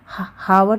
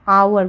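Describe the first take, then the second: First: The word begins with an h sound. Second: The word begins with a vowel sound. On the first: The speaker calls it wrong. "इसे हम हावर तो नहीं बोलते ना" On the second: The speaker calls it right. "आवर बोलते हैं"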